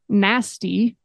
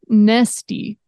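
First: The first vowel sounds like 'ah'. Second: The first vowel sounds like 'eh'. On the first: This is the pronunciation she wanted to avoid. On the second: This is the pronunciation she adopted instead.

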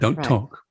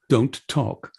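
First: The consonants run together in relaxed natural speech. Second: Every consonant is pronounced crisply and separately. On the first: The speaker calls it right. "instead of" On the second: The speaker calls it wrong. "give me every consonant"

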